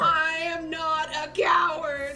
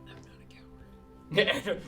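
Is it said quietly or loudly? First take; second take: loudly; quietly. First: It is said loudly, with force. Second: It is said at a normal, quiet volume.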